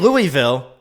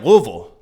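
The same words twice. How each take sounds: First: The name is said fully and clearly. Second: The name is slurred and heavily reduced. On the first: This is how an outsider says it. "I say Louisville" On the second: This is how locals say it. "they're like Louisville"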